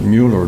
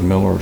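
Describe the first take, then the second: First: The first vowel is a rounded 'oo' sound. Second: The first vowel is a short 'ih' sound. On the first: This matches the name's spelling. The speaker calls it right. "you would pronounce it Mueller" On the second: This is how everyone locally said it. The speaker calls it wrong. "everybody said Miller"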